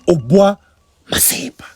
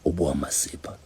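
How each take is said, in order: First: It is said in a normal voice. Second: It is said in a low voice.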